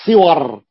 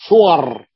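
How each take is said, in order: First: صور said "siwar", short i after the sad; attested kasra form. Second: صور said "suwar", short u after the sad; regular damma form. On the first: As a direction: open صور with an i vowel, "SI-war". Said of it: "فهو أتى". (صور بكسر الصاد وفتح الواو) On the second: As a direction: open صور with a rounded u, "SU-war". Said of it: "القياس أن يأتي فعل". (صور بضم الصاد وفتح الواو) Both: Shown as a demonstration.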